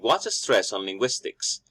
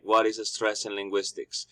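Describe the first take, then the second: First: Only some syllables are stressed, as in normal speech. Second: It is said flat with no stressed syllables. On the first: "the normal way of speaking" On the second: "if I just say it all plain"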